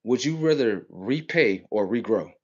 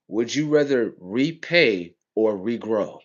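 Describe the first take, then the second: First: Said in the usual way. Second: Slow, pointed rhetorical question; slow and deliberate. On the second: Shown as a demonstration. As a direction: draw out repay and regrow slowly. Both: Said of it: "Let me show you how stupid they got you".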